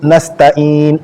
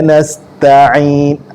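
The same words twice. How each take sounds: First: A light glottal stop is said before in. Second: A deep throaty ain is said before in. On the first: The speaker calls it wrong. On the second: The speaker calls it right.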